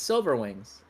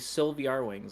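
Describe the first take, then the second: First: The name starts with the plain word 'silver'. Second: The name starts with 'Sylvie' plus the letter R. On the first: The speaker calls it right. "it's Silver Wings" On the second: The speaker calls it wrong. "that's not how you say it though"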